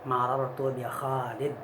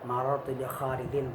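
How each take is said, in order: First: The last word ends on a bare consonant. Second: The last word ends with an -in sound. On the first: The speaker calls it right. "tetapi kita sukunkan di akhirnya" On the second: The speaker calls it wrong. "Jadi bukan bukan kita berwakaf di dun itu"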